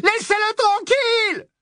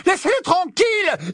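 First: High frantic scream, pushing harder; rising panicked scream; screaming plea. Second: High frantic scream; panicked high girl's scream; screaming plea. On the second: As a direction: shriek at them to stop. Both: A narrator's reading. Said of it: "Hermione poussa un hurlement".

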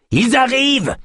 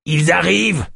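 First: Panicked repeat, near scream; frantic alarm. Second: Rising alarm, first cry; alarmed warning. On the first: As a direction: shriek it as they come. Yosp repeats warning, more frantic. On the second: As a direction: call out the danger. Yosp warns of approaching tribe. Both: Acted.

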